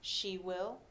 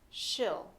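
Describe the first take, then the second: First: Both words are said fully and separately. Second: The words merge into one short syllable.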